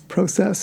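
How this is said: Process is said with a Canadian pronunciation. "mine is always process, like I'll always say"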